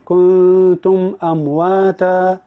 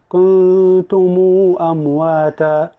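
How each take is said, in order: First: The m of kuntum ends with no vowel. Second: The m of kuntum carries a lengthened u. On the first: "الوجه الاول السكون" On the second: "الوجه الثاني الصلة"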